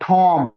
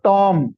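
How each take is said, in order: First: The T has a puff of air. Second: The T has no puff of air. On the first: The speaker calls it right. "था की sound आएगी इसके अंदर" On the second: The speaker calls it wrong. "So it's not टॉम"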